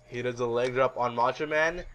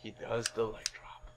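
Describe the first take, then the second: First: Said in the usual way. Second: Low, very soft delivery; hushed suspense. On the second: Acted. Host revealing the betrayal, hushed suspense. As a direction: drop to a hush for the twist.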